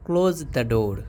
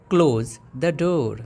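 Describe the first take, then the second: First: Said in the usual way. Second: "Close the door" stretched out, word by word; slow teaching repeat. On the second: Shown as a demonstration. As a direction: model it slowly for the class. (धीरे और साफ़ दोहराना) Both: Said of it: "अब बोलना है दरवाज़ा बंद करो".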